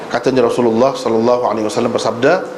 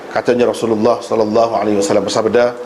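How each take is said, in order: No difference in how they are said.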